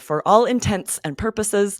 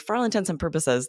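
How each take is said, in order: First: Each word is said separately and clearly. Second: The words are run together into one stream. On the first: "I'm emphasizing the words so you can tell the difference" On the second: "it sounds the same as the eggcorn"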